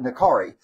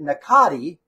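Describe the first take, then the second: First: The middle consonant sounds like an R. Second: The middle consonant sounds like a T. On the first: This is how people here say it. "we call it Nakari" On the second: This is how the makers say it. "they pronounce it Nakati, like the R is with a T"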